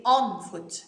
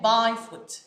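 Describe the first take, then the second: First: ON drawn out slowly in "on foot"; corrective stress on ON. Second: BY punched and drawn out in "by foot", then falling; stress on wrong BY. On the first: Teacher giving learners the right preposition, stressed ON. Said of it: "We don't say by foot". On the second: Teacher rejecting the wrong preposition, stressed BY. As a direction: hit "by" as the word to reject. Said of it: "not by foot". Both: Shown as a demonstration.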